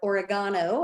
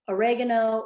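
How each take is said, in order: First: It uses the pronunciation from another country. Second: It uses the speaker's own usual pronunciation.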